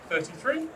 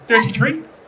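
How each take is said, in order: First: It is said with a non-Irish pronunciation. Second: It is said with an Irish pronunciation.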